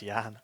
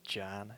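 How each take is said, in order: First: The word begins with a Y sound. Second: The word begins with an English J sound. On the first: The speaker calls it right. "note that the J's are pronounced like a Y" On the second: The speaker calls it wrong. "It's not it's not Jan"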